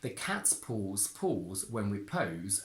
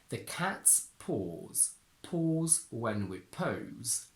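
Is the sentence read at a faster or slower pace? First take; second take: faster; slower. First: The sentence is read at a normal, quicker pace. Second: The sentence is read at a slower pace.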